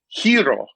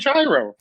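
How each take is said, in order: First: The word begins with a soft h sound. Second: The word begins with a hard j sound. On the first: This is the proper way to say it. "Like I know it's supposed to be hero" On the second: This is the everyday way the speaker says it. "But I'm going to say gyro"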